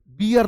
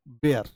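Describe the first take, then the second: First: बियर with an "ee" in it; mistake demo. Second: बेयर with an "ay" vowel, pitched lower and falling; correct pronunciation. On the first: Teacher ruling out the mistake, बियर with "ee". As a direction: say बियर as "bee-yer". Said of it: "बियर नहीं". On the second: Teacher answering own quiz, low बेयर with "ay". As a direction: say बेयर as "bair", dropping low. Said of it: "इसको क्या पढ़ेंगे". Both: Shown as a demonstration.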